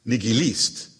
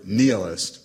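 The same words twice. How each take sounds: First: Nihilist said the Russian way, nee-ghee-LEEST; Russian pronunciation. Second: Nihilist said NEE-uh-list, stress on the first syllable; English-style nihilist. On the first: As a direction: put the accent of nihilist on the last syllable. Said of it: "with accent on the last syllable". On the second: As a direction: say nihilist with an opening "nee" and falling end. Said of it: "In Russian, it's pronounced". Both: Acted.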